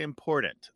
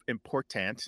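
First: Important with the middle T flapped to D. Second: Important with a crisp middle T; fully pronounced T. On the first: Host showing North American flapping, D sound in important. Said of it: "we say it as a D". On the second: Host showing the form nobody uses, crisp T in important. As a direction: sound the T in important as a true T. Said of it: "so that instead of important". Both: Shown as a demonstration.

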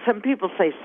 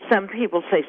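The two takes are said the same way.

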